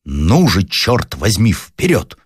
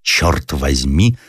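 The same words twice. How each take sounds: First: Commanding shout. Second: «Чёрт возьми» drawn out slowly, German-style, rising on «возьми»; German-accented curse. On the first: Officer urging his men forward, commanding shout. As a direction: bark the order forward. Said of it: "повелительным голосом закричал". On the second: Unseen German soldier nearby, slow German-accented «Чёрт возьми». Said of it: "ясно выговоренный немецкий". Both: Acted.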